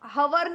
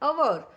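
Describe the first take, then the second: First: The word begins with an h sound. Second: The word begins with a vowel sound. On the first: The speaker calls it wrong. "हम और हवर नहीं बोलते" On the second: The speaker calls it right. "हम बोलते हैं अवर"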